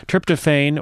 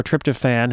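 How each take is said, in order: First: "Tryptophan" ending in a long "fain"; alternate pronunciation. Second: "tryptophan" ending in a short "fan"; alternate pronunciation. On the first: Host offering one way to say the drug's name, "Tryptophan" as "TRIP-tuh-fain". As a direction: say "Tryptophan" with last syllable rhyming with "rain". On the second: Host offering the other way to say the drug's name, "tryptophan" as "TRIP-tuh-fan". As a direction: say "tryptophan" with last syllable rhyming with "man". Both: Shown as a demonstration. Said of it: "however you pronounce it".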